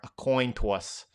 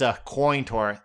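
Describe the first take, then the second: First: It is said in a New York accent. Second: It is said in the speaker's ordinary accent.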